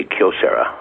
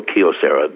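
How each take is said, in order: First: "Kyocera" with Kyo as one syllable; Japanese pronunciation. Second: "Kyocera" the looser, non-Japanese way; accepted variant pronunciation. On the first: Guest teaching the host the company name, "Kyocera" with one-syllable Kyo. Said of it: "Kyo being one syllable". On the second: Guest showing what some people say, variant "Kyocera". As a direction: say "Kyocera" with Kyo not squeezed into one syllable. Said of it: "some people go Kyocera". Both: Shown as a demonstration.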